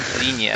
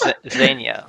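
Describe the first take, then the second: First: Xenia said ZEE-nee-uh; mispronounced name. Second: Xenia said ZEN-ya; corrected pronunciation. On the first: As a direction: say Xenia with a long ee in the first syllable. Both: Shown as a demonstration. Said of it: "you're pronouncing her name wrong".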